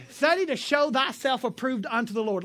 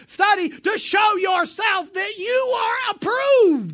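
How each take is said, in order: First: Said in the usual way. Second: "Study to show yourself that you are approved" proclaimed higher, loud and slow; correct reading. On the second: Shown as a demonstration. Preacher correcting a misquoted verse, loud slow proclamation. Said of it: "What he said".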